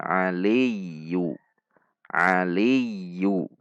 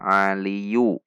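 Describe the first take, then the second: First: "aliyu" slowly, as ali-yyu with held y; correct doubled ya. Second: "aliyu" without doubling the y; wrong single ya. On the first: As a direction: lean long on the y of "aliyu". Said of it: "Ada ya tasydid". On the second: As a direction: pass lightly over the y of "aliyu". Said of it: "Tidak dibaca aliyu". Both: Shown as a demonstration.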